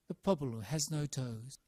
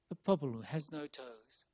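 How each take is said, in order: First: The voice is unfiltered, with all frequencies present. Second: The low frequencies are cut from the voice.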